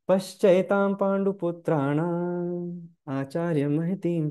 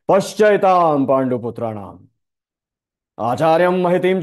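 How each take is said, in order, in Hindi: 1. इसे सीधे, सामान्य लहजे में बोला गया है। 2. इसे व्यंग्यपूर्ण, तंज़ भरे लहजे में बोला गया है। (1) "ऐसे नहीं बोला गया" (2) "ये ऐसे बोला गया है ... ये सार्केज्म है"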